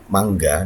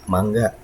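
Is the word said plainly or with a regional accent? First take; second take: plain; accented. First: It is said plainly without a regional accent. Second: It is said with a Sundanese regional accent. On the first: It means the mango fruit. "disebutkan secara biasa saja tanpa ada logat apapun" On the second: It means please, go ahead. "logatnya pun berbeda"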